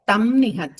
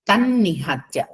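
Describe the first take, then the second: First: An m sound ends the first word separately. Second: The words join with a doubled n sound. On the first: The speaker calls it wrong. "అయినా అనొద్దమ్మ" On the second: The speaker calls it right. "తన్నిహత్య తాకింద యకారం సంయుక్తాక్షరం"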